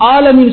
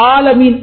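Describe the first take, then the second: No difference in how they are said.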